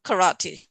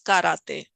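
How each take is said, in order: First: It is pronounced the English way. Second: It is pronounced the Japanese way. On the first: The speaker calls it wrong. "It's not karate" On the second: The speaker calls it right. "That's the Japanese word"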